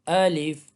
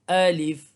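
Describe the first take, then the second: The two takes are said the same way.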